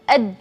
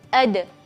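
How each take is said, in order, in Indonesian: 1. Huruf d di akhir ditahan dengan nafas yang dihentikan. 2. Huruf d di akhir menutup lalu dilepas dengan pantulan. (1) "berhenti nafas" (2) "kita merapatkan makhrajnya, terus kita membuka"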